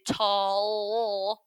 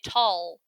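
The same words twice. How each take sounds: First: The final L sound is pronounced twice. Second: The final L sound is pronounced once. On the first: The speaker calls it wrong. "We don't say tall" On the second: The speaker calls it right. "we only need one sound"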